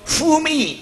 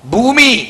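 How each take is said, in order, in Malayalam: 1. ഈ വാക്ക് 'f' ശബ്ദത്തിലാണ് തുടങ്ങുന്നത്. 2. ഈ വാക്ക് ശ്വാസം ചേർന്ന 'bh' ശബ്ദത്തിലാണ് തുടങ്ങുന്നത്. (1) "കോട്ടയത്തേരോ ഭൂമി" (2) "ഭൂമി എന്ന് നമ്മൾ പറയാ"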